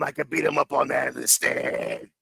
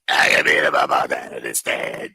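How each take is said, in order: First: Said in the usual way. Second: Much lower, gravelly mobster rasp; mock the witness's rough voice; raspy mobster impression. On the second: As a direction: grind it out like a cement mixer. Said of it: "Who the fuck talks like that?".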